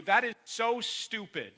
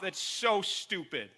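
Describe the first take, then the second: First: So stupid said slow and heavy; slow blunt emphasis. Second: So stressed, said slow and falling; slow blunt emphasis. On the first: Pastor bluntly scolding his church, slow and heavy. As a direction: drag out that is so stupid, each word weighted. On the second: Pastor repeats his blunt verdict to the church, slowly. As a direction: lean on so, slow and firm. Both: Real, not acted. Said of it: "I'm just gonna tell you".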